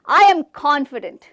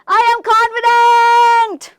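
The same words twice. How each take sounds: First: The phrase is loud and firm without shouting. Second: The phrase is shouted at full volume. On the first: The speaker calls it right. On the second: The speaker calls it wrong.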